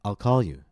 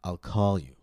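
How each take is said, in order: First: "call" jumps up suddenly, then drops to "you"; matter-of-fact jump up. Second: "call" glides up and falls, sounding annoyed. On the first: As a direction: state it as plain fact, pitch jumping on "call". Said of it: "to simply state an objective fact". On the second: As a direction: slide into "call" with a touch of annoyance. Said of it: "such as being annoyed". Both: Shown as a demonstration.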